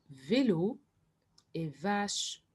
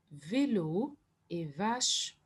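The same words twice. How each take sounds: The two takes are said the same way.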